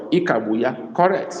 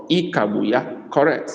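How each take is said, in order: Both takes have the same delivery.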